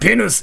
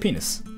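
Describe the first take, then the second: First: It is said in an angry, put-on samurai voice. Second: It is said in an ordinary, calm voice. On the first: "it freaking sounds like samurai" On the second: "it wouldn't sound like samurai"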